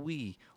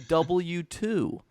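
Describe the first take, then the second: First: The name is said as one word. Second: The name is read as a letter and number.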